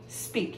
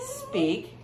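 First: Soft unvoiced command; whispered. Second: Sharp high-pitched order; high command. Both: Shown as a demonstration.

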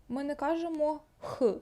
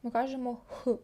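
First: «Х» said with a hard rasp; «Х» the wrong hard Ukrainian way; «Х» hard, not breathed. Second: «Х» as a light exhale; breathed Swedish H. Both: Shown as a demonstration. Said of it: "наче видихаємо".

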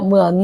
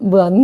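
No difference in how they are said.

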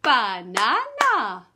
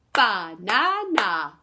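First: Slow banana, each beat sounded; syllables clapped. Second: Slow loud banana, beats marked; syllables clapped. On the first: Teacher claps syllables of banana with children. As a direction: clap out ba-na-na slowly. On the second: Teacher repeats banana syllable by syllable for children. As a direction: beat out ba-na-na for the class. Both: Shown as a demonstration. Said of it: "three syllables in".

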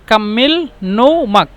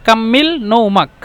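First: কাম্মিল নৌমাক drawn out slowly; slow, careful teacher model; slow demo. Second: Said in the usual way. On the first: Shown as a demonstration. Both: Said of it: "আঞ্চলিক ভাষা হলো কাম্মিল নৌমাক".

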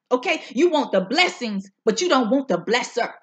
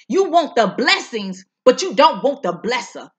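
First: Said in the usual way. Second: "You want the blessings, but you don't want the blesser" pressed louder, voice near tears; emphatic repeat. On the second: Shown as a demonstration. Preacher repeating her point for the viewers, louder and near tears. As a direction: hit it harder the second time, almost crying. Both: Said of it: "I'ma say that again".

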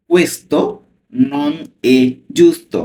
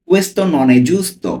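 First: Said in the usual way. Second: Very slow, word by word; teacher reading "Questo non è giusto" at a crawl for learners; slow Italian model reading. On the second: Shown as a demonstration. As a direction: spell out Questo non è giusto slowly, each word apart. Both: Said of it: "আমি slowly পড়ছি।".

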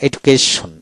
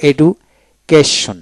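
First: Said in the usual way. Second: এডুকেশন drawn out slowly with a break after এডু; split into syllables. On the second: Shown as a demonstration. Teacher showing the parts of a word, slow split syllables. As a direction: slowly pull এডু and কেশন apart. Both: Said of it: "এভাবে".

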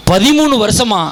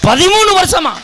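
First: Said in the usual way. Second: பதிமூணு said higher and louder, then falling; stress on பதிமூணு. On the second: Shown as a demonstration. Setting up the joke for the audience, பதிமூணு high and loud. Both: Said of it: "repeated for the punchline".

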